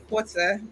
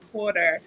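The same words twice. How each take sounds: First: It is said in a British accent. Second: It is said in an American accent.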